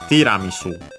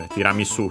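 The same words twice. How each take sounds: First: The accent falls on the first syllable. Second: The accent falls on a later syllable. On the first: "in Japanese it's on the uh, first mora, so on the T" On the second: "might be pronounced like in Italian"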